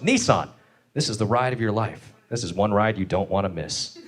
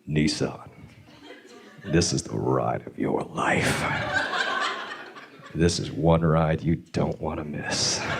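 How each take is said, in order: First: It is said in a normal commercial tone. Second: It is said in a creepy, leering tone.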